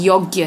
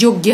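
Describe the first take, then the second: First: Said in the usual way. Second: योग्य said as "jogya"; wrong consonant. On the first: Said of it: "योग्य है". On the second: Shown as a demonstration. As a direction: begin योग्य with a "j". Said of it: "लेकिन गलत है".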